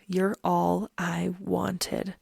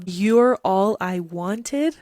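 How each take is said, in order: First: Wistful lyric reading. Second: Louder, very slow, rising in disbelief; incredulous question. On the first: Reading the lyric aloud to viewers, slow and wistful. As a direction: linger on each word like a sad ballad line. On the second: Pointing out the lyric to viewers, incredulous rising repeat. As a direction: repeat it back as if it's too perfect to believe. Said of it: "Have you heard any lyric that sounds more like Bella Swan". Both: Shown as a demonstration.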